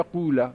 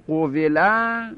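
First: قوله said qula, in two syllables; qu-la, the waw a long vowel in قوله; kasra dropped. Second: قوله said qovela, in three syllables; qo-ve-la, damma first and kasra on the waw in قوله; full passive form. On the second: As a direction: say قوله with o, then ve, then la. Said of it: "ضم اول و کسر". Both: Shown as a demonstration.

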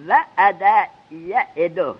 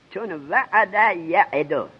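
First: وعد یعدو drawn out slowly, each syllable spelt; slow drill of وعد یعدو. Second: چون وعد یعدو said slowly again; slow drill repeat. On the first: Teacher drilling students, slowly dictating وعد یعدو. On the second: Teacher repeating the form slowly for the class. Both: Shown as a demonstration. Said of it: "الوعد زنده در گور کردن".

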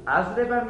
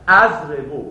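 First: اضرب ending in a clear "-a"; teacher's model اضرب, "azriba"; accusative ending. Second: اضربو ending in a clear "-u"; louder اضربو, closing on "oo"; teacher's model اضربو, "azribu"; nominative ending. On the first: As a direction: close اضرب on an open "a". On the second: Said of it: "اگه بخواد منصوب بشه". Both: Shown as a demonstration.

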